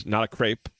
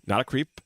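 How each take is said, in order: First: "crepe" with an ay sound, pitched under "creep"; "crepe" with ay vowel. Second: "creep" rhyming with sleep, pitch lifted at the end; "creep" with long ee. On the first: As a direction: say "crepe" rhyming with grape. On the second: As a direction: say "creep" with an ee vowel, rising. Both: Acted. Same phrase, vowel switched.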